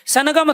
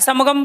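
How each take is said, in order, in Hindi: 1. g से पहले की नासिका ध्वनि 'n' जैसी सुनाई देती है। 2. g से पहले की नासिका ध्वनि 'm' जैसी सुनाई देती है। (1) "सनगम थोड़ा ही बोलते हो ना" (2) "समगम बोलते हो"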